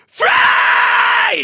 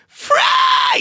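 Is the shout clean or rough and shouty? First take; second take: shouty; clean. First: It is a rough, gravelly, shouty yell. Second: It is said cleanly, without a rough shout.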